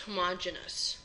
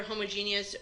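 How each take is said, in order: First: "homogeneous" stressed on the second syllable, MOJ; homogeneous as huh-MOJ-uh-nus. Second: "homogeneous" with long JEE, stressed on the third syllable; homogeneous as ho-mo-JEE-nee-us. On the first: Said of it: "You might also hear homogeneous pronounced". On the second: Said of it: "It's pronounced both ways". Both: Shown as a demonstration.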